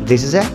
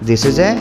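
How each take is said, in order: The two takes are said the same way.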